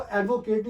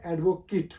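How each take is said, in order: First: एडवोकेट as "ad-vo-kayt"; wrong "kate" ending on एडवोकेट; rejected pronunciation. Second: एडवोकेट with a short "kit" ending; the noun एडवोकेट, last syllable reduced to "kit"; correct pronunciation. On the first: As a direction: say एडवोकेट with a long ay in the last syllable. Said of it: "ये actual word है". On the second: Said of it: "actual word है एडवोकेट". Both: Shown as a demonstration.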